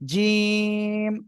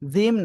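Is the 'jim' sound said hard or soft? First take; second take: hard; soft. First: The jim is said hard. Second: The jim is said softly. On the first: The speaker calls it right. "জিম শক্ত হবে" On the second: The speaker calls it wrong. "জিম না"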